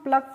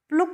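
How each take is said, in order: First: The vowel is an open 'uh' sound. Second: The vowel is a rounded 'oo' sound. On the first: The speaker calls it right. "इसको हम प्लक पढ़ते हैं" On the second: The speaker calls it wrong. "प्लुक नहीं पढ़ते हैं"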